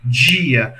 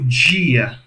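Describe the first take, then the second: First: The d is affricated, tongue off the teeth. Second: The same.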